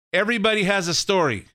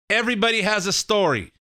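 Both takes have the same delivery.

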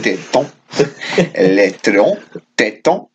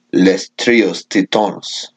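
First: French accent. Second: Slow, Spanish-sounding "Les Trios Titones"; Spanish accent. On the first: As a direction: say "Les Trios Tétons" carefully in French. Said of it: "let's go into the French". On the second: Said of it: "'Cause you just said it in Spanish". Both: Shown as a demonstration.

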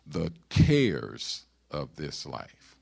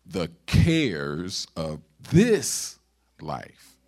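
First: "cares" drawn out slow and loud; slow down and lean hard on "cares"; stress on "cares". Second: Heavy, drawn-out weight on "this", then a pause before "life"; stress on "this". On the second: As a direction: slowly build through "cares" and hit "this" hard. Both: Shown as a demonstration. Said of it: "put the emphasis on different".

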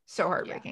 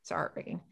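First: Breathy near-whisper of grief; softly heartbroken. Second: Barely voiced whisper of heartbreak. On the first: Podcaster sighing over the sad episode, hushed. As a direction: let it fall away in a hush. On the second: Podcaster repeating her grief in a whisper. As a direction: whisper it, almost gone. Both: Real, not acted.

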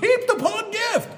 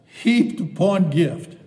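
First: "Heaped upon gift" shouted much higher and louder; joyful shout. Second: "heaped upon gift" louder and slower, leaning on heaped; delighted emphasis. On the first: Preacher reaching the verse he loves most, shouting with joy. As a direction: burst out in ecstatic joy. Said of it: "This is what I really love". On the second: Preacher savoring a favorite verse, lightly emphatic. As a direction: savor the phrase. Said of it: "I like this". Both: Real, not acted.

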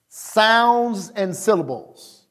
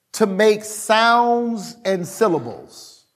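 First: Slow repeat. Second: Slow emphasis. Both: Real, not acted. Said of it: "repeats slowly".

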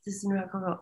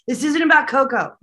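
First: "This isn't about Coco" whispered, nearly silent; whispering what Hira told her. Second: Raised, louder mock protest; relaying Hira's objection, higher and louder; quoted protest. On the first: Retold or imitated. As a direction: breathe it as a secret aside. Retelling a spirit's aside. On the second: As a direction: toss out the spirit's objection brightly. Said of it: "it was Hira saying".

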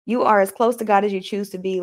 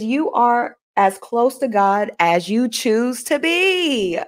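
First: Said in the usual way. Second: Slow, stretched-out reading with a long final BE; measured, drawn-out quotation. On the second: Shown as a demonstration. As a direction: read it out slowly, stretching the last word. Reads out quote, then repeats it.

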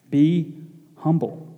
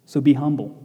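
First: "Be", pause, soft firm "humble"; slow emphatic repeat. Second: Said in the usual way. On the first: Shown as a demonstration. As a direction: pause after "Be", then "humble" comes out softer. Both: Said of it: "repeats the command".

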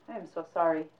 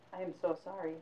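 First: Said in the usual way. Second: Soft apology. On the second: Acted. Apology repeated.

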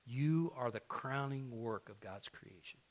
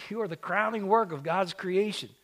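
First: Soft and slow, drawing them in; hushed, deliberate promise to the church; quiet, slow declaration. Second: "work" hit hard in a ringing proclamation; preaching full voice. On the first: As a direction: let it land gently, almost hushed. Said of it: "repeats the line louder". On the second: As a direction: proclaim it to the whole church. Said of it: "repeated after quiet take". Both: Shown as a demonstration.

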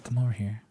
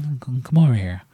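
First: Very soft, breathy half-whisper; hushed whisper. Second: Said in the usual way. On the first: Retold or imitated. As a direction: quietly beckon him closer. Beckoning Kevin closer in secret.

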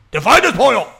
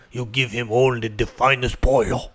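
First: Put-on high, loud Mexican-accent outburst; mock waiter's cry. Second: Put-on low, grave Mexican accent; mock Mexican waiter. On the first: Waiter driving the order home to the kitchen, hammed-up loud Mexican-accent cry. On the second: Waiter instructing the kitchen, low hammed-up Mexican accent. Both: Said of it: "a waiter going to the back and be like".

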